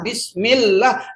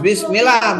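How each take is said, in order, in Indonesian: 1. Bunyi l ditahan panjang dan ganda. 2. Bunyi l pendek dan tunggal. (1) "Tasdidnya biar pas" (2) "bukan bismillah"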